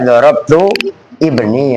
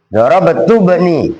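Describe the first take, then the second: First: Each word is said separately with a break. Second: The words run together without a break. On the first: "Kalau dipisah-pisah" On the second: "Kalau dibaca langsung"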